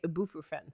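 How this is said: It is said the British way. The speaker calls it wrong. "they say ibuprofen"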